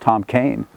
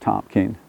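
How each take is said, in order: First: The surname has an 'ay' vowel, like cane. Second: The surname has an 'ee' vowel, like keen. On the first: "I believe Kane is the correct pronunciation" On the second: "Some people pronounce it Keene"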